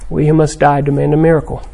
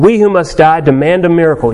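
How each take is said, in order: First: It is said softly, as a plea. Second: It is said forcefully, as a demand. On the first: The speaker humbly begs for a miracle. "And then the plea. A much softer second line" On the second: The speaker insists that God owes them a miracle. "up to God, saying"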